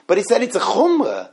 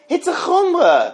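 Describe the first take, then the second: First: Said in the usual way. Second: "chumrah" pitched much higher and drawn out slowly; emphatic repeat. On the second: Shown as a demonstration. Teacher stressing to students that it's only a stringency, much higher and slow. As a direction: lift "chumrah" up high and slow it down to drive it home.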